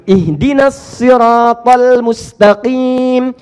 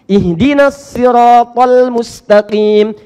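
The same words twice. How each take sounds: First: Siratal begins with an emphatic s sound. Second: Siratal begins with an emphatic s sound.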